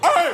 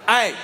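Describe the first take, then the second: First: The voice cracks in the yell. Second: The voice stays steady and controlled.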